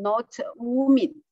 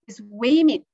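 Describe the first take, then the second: First: The first vowel sounds like 'wu'. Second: The first vowel sounds like 'wi'. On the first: The speaker calls it wrong. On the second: The speaker calls it right.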